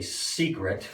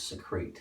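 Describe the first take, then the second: First: The word is said like the noun 'secret'. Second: The word is said like the verb 'secrete'. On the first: This is how most people say it. "most people say secret when they're hiding something" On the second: This is the form an institution required. "they insisted it was secrete"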